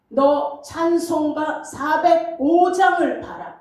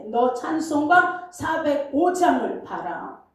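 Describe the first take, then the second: First: Slow, solemn divine command with the weight on 장을; voice of God. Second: The same command at normal pace and level, as if spoken right next to him; voice close beside. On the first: God commanding the weeping pastor, slow and solemn. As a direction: hand down the order from above, slowly. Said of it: "이렇게 하는 것처럼 들리는 거예요". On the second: God speaking right beside the pastor, close and plain. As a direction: say it like someone at your side. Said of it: "내 옆에서 지금 얘기하시는 것 같아". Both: Retold or imitated.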